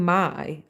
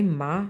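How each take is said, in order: First: "my" with the full gliding eye vowel; "my" pronounced to rhyme with eye; standard "my". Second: "ma," an open ah with no glide; "ma" in the speaker's own accent, rhyming with bah. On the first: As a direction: say "my," sliding from ah to ee. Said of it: "instead of saying". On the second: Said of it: "I say". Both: Shown as a demonstration.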